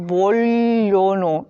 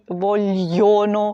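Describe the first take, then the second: First: The l runs straight into the vowel. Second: A y-glide is heard after the l. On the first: The speaker calls it right. "тільки «вольоно», і там одразу «л» і «о»" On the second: The speaker calls it wrong. "ми не вимовляємо"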